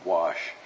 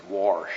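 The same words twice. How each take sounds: First: "wash" said plainly as "wahsh", no r; standard wash. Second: "wash" said as "warsh" with an r; West Texas wash. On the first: Preacher correcting himself to plain "wash". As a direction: standard "wash", soft and low. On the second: Preacher's West Texas joke, saying "wash" as "warsh". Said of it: "as I say in West Texas". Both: Shown as a demonstration.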